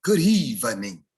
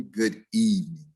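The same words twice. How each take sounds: First: "evening" stretched slowly into three syllables, ev-en-ing; slow, overdone church-announcement "Good evening". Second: "evening" in two syllables, eve-ning; correct pronunciation. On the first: Retold or imitated. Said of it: "she'll get up and say". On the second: Shown as a demonstration. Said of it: "it's just simply".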